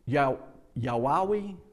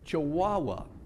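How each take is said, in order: First: The word begins with a y sound. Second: The word begins with a ch sound. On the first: The speaker calls it wrong. "he can't pronounce the CH in that" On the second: The speaker calls it right. "but it's a chihuahua"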